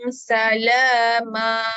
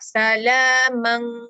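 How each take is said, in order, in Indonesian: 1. Kata ini berakhir dengan vokal a yang dipanjangkan. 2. Kata ini berakhir dengan bunyi sengau ng. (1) "Belakang jadi ma. Mak iwat" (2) "man kita baca tanwin. Tapi ni hukum ifak"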